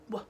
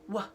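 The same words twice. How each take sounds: The two takes are said the same way.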